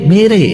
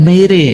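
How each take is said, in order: The two takes are said the same way.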